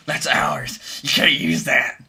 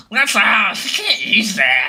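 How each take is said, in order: First: Gremlin voice. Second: High, loud, slow gremlin screech. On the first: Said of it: "that's what a copyright company sounds like". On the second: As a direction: snarl it out like a greedy little gremlin. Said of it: "would a gremlin sound more like". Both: Retold or imitated.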